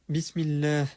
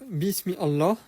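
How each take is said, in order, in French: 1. Les mots s'enchaînent, avec l'alif muet. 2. Les mots sont dits séparément, avec l'alif prononcé. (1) "sans prononcer le alif" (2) "tout détaché"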